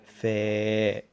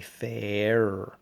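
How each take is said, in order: First: The word ends without any R sound. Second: The word ends with a clear R sound. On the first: The speaker calls it right. "we're trying to avoid the R on the end of that" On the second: The speaker calls it wrong. "you may actually emphasize the R sound at the end"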